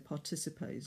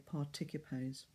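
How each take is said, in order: First: The C is soft, like an S. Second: The C is hard, like a K. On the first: The speaker calls it wrong. "as soft" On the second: The speaker calls it right. "we need to hear"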